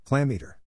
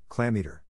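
First: Second taunt pushed up and a bit louder; louder shout. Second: First taunt, only a mild mock shout. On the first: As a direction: throw the insult harder this time. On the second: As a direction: tease him, holding back for now. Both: A narrator's reading. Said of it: "shouted as loud as he could".

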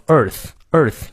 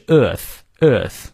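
First: "Earth" ending in a clear th, tongue between the teeth. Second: "earth" slow, with a silent r; British EARTH. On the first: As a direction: bite the tongue lightly for the th in "Earth". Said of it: "咬舌". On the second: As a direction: drop the r in "earth", British style. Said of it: "这个R不念". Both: Shown as a demonstration.

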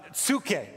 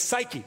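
First: "psuche" said roughly tsoo-KAY; Greek-style pronunciation. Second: "psyche" said SY-kee; English pronunciation. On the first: Preacher teaching the Greek word, "psuche" said with an oo. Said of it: "or what we might say is psyche". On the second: Preacher giving church the familiar form, "psyche" said SY-kee. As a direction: say "psyche" English style, silent p and long i. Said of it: "what we might say is psyche". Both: Shown as a demonstration.

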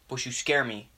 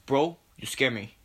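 First: Lightly voiced douchebag tough guy; a hint of American bro bravado. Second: Lightly put-on Spanish accent; quicker, emphasized bro talk with a Spanish accent. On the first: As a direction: play a mildly aggrieved douchebag. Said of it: "slowly going from American douchebag". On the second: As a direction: slip into a mock Spanish accent. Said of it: "I get this Spanish accent".

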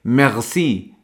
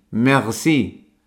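First: Merci with a French uvular R; merci con erre francesa. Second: Merci repeated with a French uvular R; merci otra vez con erre francesa. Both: Shown as a demonstration. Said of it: "cuando decimos gracias en francés".

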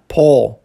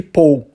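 First: "Paul." said the English way, one open vowel like "pawl". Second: "Paul" said as "Pau-oo", the Brazilian way with a closing "w"; Brazilian-style Paul. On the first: Teacher models the English name for students, open "aw" vowel. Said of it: "em inglês nós falamos Paul". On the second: Teacher shows the Brazilian mispronunciation of the name, "ow" ending. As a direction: let "Paul" glide to an "ow" ending. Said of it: "é uma pronúncia diferente de Paul". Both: Shown as a demonstration.

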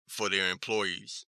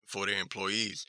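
No difference in how they are said.

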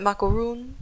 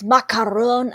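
First: "macaroon" with an English "-oon" ending; anglicized pronunciation. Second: "macaroon" with a French-style "-on" ending; French accent. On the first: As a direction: say "macaroon" the English way, rhyming with moon. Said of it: "pretty sure I'm not pronouncing it correctly". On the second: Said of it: "He says it all Frenchy". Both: Shown as a demonstration.

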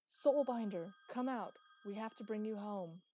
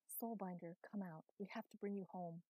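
First: Full-force bellow, much louder and higher. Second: Mild bellow at near-usual volume; restrained bellow. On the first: Thunder calling the Soulbinder out, bellowing. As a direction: bellow a demand into the dark. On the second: Thunder calling the Soulbinder out, restrained bellow. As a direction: call out firmly without really shouting. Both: A narrator's reading.

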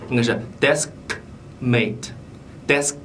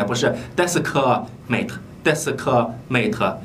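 First: "deskmate" with no added vowel, slow; clean consonants. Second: "deskmate" with a vowel after desk, slow; extra vowel. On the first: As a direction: keep "desk" tight. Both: Shown as a demonstration. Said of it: "你不要读出一个元音来".

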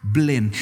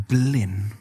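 First: Blind repeated firmer and weightier; emphatic repeat. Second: Said in the usual way. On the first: Shown as a demonstration. Preacher repeating his heading to the church, emphatic. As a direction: land the word Blind hard. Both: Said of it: "første overskriften jeg har i dag er".

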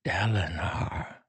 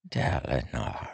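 First: Soft, slow, a little higher plea; second quiet call, lifted pitch; whispered name, rising. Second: Soft, slow hushed plea; quiet slow whisper of a name. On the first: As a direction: repeat the name hushed and pleading. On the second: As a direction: breathe his name softly. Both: A narrator's reading. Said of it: "Taravangian whispered".

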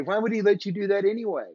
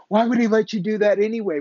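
First: Mock scream, repeated. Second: Higher, louder and fast, imitating a heckler; hammed-up yelling objection; mock scream. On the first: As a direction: rattle off the objection again, less force. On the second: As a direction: fire off the challenge like an indignant shout.

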